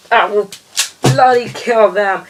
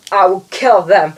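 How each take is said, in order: First: Higher, hammed-up villain rant; mock villain going over the top; escalated villain threat. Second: Hammed-up villain threat; mock sinister vow. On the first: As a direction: push the threat further, almost gleeful. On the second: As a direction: declare it like a cartoon baddie. Villain threat, first take.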